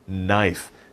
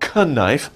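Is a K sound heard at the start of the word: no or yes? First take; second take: no; yes. First: No K sound is pronounced at the start. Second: A K sound is pronounced at the start. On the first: The speaker calls it right. "The K is silent" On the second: The speaker calls it wrong. "It's not knife"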